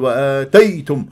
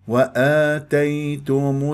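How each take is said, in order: First: The Y sound is pushed with a forceful jolt. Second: The Y sound flows smoothly without a jolt. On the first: The speaker calls it wrong. "أنت نبرتها، هذا خطأ" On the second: The speaker calls it right. "لا ينبغي نبر يا اللين"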